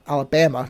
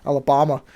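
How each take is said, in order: First: Alabama with the "bam" of "bamboo"; Alabama, third syllable rhyming with "ham"; short-a pronunciation. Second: Alabama with a broad "bah" in the third syllable; Alabama, stressed vowel as in "father"; odd accent. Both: Real, not acted. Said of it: "What was that accent?".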